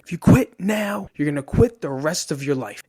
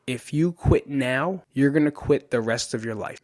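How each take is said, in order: First: Coach yelling. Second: Said in the usual way. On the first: Retold or imitated. Coach warning his wrestler about quitting, yelling it. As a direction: hammer out the warning loudly, then ease slightly. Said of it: "And he's yelling". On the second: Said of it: "He screams it multiple times".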